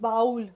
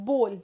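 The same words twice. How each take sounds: First: The vowel does not sound like 'bohl'. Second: The vowel sounds like 'bohl'. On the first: The speaker calls it wrong. "It is not bowl" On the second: The speaker calls it right. "It is bowl. ... B O H L"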